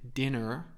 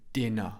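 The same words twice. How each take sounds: First: The final r sound is pronounced. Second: The final r sound is silent. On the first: The speaker calls it wrong. "I don't say dinner" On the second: The speaker calls it right. "I say dinner. My mouth is open at the end"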